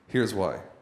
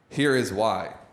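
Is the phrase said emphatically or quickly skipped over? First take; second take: quickly; emphatically. First: It is said quickly and lightly. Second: It is said slowly with weight.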